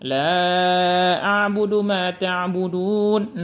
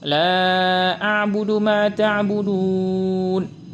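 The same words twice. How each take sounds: First: The last long vowel is held moderately long. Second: The last long vowel is held very long. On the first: "empat harokah" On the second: "enam harokah"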